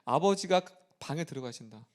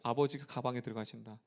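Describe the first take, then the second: First: The pause falls after 'abeojiga', before 'bang'. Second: The pause falls after 'abeoji', before 'gabang'. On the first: Father goes into the room. The speaker calls it right. "우리 너무 잘하는" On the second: Father goes into the bag. The speaker calls it wrong. "숨을 잘못 쉬어봐요"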